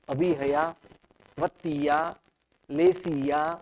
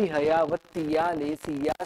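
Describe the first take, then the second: First: There is a short pause after each word. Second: The words are run together quickly without pauses. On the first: "हर बार हमको यह अल्प विराम अवश्य लेना चाहिए, थोड़ा ठहरना चाहिए" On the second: "बहुत फास्ट बोला"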